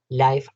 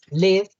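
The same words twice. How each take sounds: First: The word gets its adjective pronunciation. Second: The word gets its verb pronunciation. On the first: It means happening in real time. "live, adjetivo de en vivo" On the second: It means to be alive or reside. "Live, verbo"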